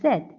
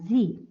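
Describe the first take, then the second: First: The letter is said the British way. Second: The letter is said the American way.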